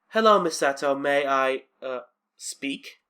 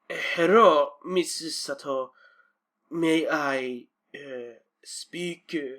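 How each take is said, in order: First: It is said in the speaker's plain accent. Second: It is said in a mock Japanese accent.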